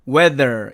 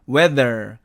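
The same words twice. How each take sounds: The two takes are said the same way.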